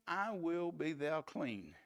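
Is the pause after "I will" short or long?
short. There is only a short pause after "will".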